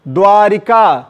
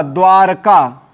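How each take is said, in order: First: द्वारिका with an i after र; three syllables in द्वारिका; wrong form. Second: द्वारका with no i after र; slow, measured द्वारका without the i; correct form. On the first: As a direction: say द्वारिका as dvaa-ri-kaa. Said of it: "ना कि द्वारिका". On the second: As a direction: say द्वारका slowly as dvaar-kaa. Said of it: "शुद्ध शब्द क्या होगा?". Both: Shown as a demonstration.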